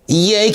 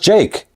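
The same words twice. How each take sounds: First: The name is said with a Spanish-like pronunciation. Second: The name is said with standard English pronunciation. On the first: The speaker calls it wrong. "He's pronouncing it wrong" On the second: The speaker calls it right. "Jake is how you pronounce Jake"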